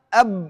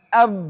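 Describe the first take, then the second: No difference in how they are said.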